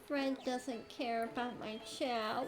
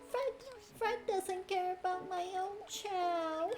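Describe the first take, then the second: First: It is said in her normal voice. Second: It is a high-pitched Kaguya-sama impression.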